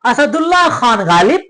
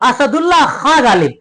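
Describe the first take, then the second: First: Khan ends with a full n sound. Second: Khan ends with a nasalized vowel, no n. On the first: "नून हाजिर" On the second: "सिर्फ नून गुन्ना का फर्क कर दिया था"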